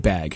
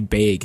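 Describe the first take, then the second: First: The word is said with a general vowel. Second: The word is said with a Northwest vowel. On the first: "you say bag" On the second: "a lot of people here in Vancouver in the Northwest say bag"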